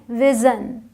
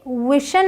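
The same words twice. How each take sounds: First: विजन with a voiced z sound; correct pronunciation. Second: विशन with a hushing sh, drawn out; wrong pronunciation. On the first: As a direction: say विजन as "vizun". (विजन को ज़ की आवाज़ से) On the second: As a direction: say विशन slowly as "wishun". (विशन को गलत, श की आवाज़ से) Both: Shown as a demonstration. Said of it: "ये विशन नहीं है".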